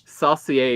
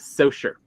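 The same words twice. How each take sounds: First: The name is said with a French pronunciation. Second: The name is said with an English pronunciation. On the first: The speaker calls it wrong. "it is not Saucier, Mississippi, as much as you know people want it" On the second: The speaker calls it right. "It is Saucier"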